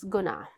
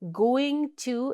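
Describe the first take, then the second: First: The words blur into one short word. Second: Both words are said separately and fully.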